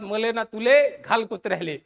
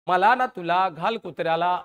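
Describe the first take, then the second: First: It is said in Vidarbha dialect pronunciation. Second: It is said in standard Marathi pronunciation. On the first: "आमच्या विदर्भात म्हणतात" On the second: "आपल्या मराठीतली म्हण आहे"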